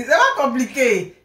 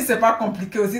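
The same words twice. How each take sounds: First: "C'est pas compliqué" said slowly with weight on "pas"; slow emphatic repeat. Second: Said in the usual way. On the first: Shown as a demonstration. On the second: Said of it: "Elle dit".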